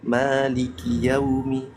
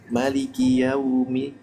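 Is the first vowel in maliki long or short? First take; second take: long; short. First: The first vowel of maliki is long. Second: The first vowel of maliki is short. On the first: This is not the reading being shown. "Jadi bukan" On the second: This is the reading being shown. "Ya pendek namanya"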